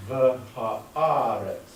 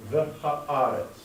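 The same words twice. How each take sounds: First: "The haaretz" louder on "The", very slow, falling; voice inflection. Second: "The haaretz" with the stress on "The", slow, falling at the end; voice inflection. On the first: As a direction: draw out "The haaretz" and push the first word. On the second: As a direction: lean on "The", then let "haaretz" fall slowly. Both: Shown as a demonstration. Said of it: "Notice the voice inflection".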